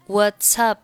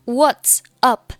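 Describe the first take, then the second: First: "What's up" linked as "what-sup". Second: "What's up" word by word, higher; 分开读. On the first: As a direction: run the s of "What's" into "up", p unreleased. (What's up连读成一个词) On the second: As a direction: separate "What's" and "up", each said fully. (What's和up分开重读) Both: Shown as a demonstration. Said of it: "连读".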